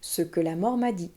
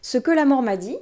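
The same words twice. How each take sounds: First: The pitch falls on the last word. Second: The pitch stays up on the last word. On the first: The title is finished and the chapter begins. The speaker calls it right. "le ton va redescendre pour indiquer que c'est la fin de la phrase" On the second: Something more seems to follow. The speaker calls it wrong. "Il n'y a pas la chute"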